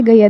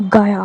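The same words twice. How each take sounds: First: Said in the usual way. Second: Gaya said as a British speaker struggling with the Hindi word; "gaya" mimicked as a foreigner's miss; imitating British mispronunciation. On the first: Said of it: "they can't say gaya". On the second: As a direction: say "gaya" with an attempted British accent. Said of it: "they are like gaya or something".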